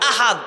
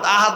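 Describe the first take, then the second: First: The h is a deep, throaty sound. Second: The h is a plain, light sound. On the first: God is one. The speaker calls it right. "ওই আহাদ, আল্লাহ একক" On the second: It means a promise. The speaker calls it wrong. "আহাদ মানে ওয়াদা"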